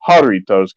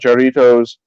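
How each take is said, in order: First: The first sound is an H. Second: The first sound is an English J. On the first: The speaker calls it right. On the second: The speaker calls it wrong.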